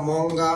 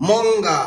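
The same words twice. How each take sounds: First: Said in the usual way. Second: "মঙ্গা" raised and drawn out on both syllables; sounding out. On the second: Shown as a demonstration. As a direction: call out "মঙ্গা" as a dictation word, held long. Teacher announces word to spell.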